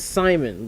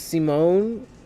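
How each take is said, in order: First: The name ends with a short -mon sound. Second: The name ends with a long -mone sound. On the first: The speaker calls it right. "His name is Simon" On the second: The speaker calls it wrong.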